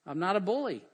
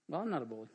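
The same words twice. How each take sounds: First: Said in the usual way. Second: Lower, softer afterthought; low aside. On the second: Acted. Preacher qualifying his own claim after "although", low aside. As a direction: drop it under the main talk as a second thought.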